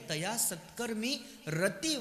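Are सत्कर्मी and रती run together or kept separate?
separate. The last two words are kept as separate words. The speaker calls it right. "हे दोन स्वतंत्र शब्द आहे"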